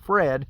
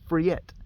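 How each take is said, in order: First: It is read like the English name. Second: It is said the Swedish way, like friet. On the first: The speaker calls it wrong. "instead of saying Fred" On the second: The speaker calls it right. "they say friet"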